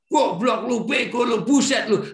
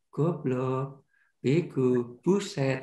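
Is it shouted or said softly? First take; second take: shouted; softly. First: It is shouted loudly and angrily. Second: It is said softly and quietly.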